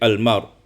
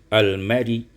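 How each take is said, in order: First: The word ends on a bare consonant, no vowel. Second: The word ends with a brief, faint i vowel. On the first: "diwakafkan menjadi almar" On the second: "dibaca dengan rum"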